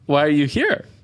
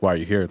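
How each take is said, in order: First: It sounds genuinely curious. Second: It sounds rude.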